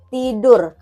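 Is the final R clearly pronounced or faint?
clear. An Indonesian accent with a clear final R. "Kalau orang Indonesia R-nya itu jelas"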